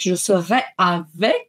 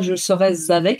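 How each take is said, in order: First: No z sound links serai to avec. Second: A z sound links serai to avec. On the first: The speaker calls it right. "il n'y a pas de liaison, nous restons sur un futur" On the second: The speaker calls it wrong. "il n'y a pas je serai avec"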